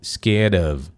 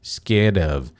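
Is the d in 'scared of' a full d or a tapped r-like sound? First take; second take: tapped; tapped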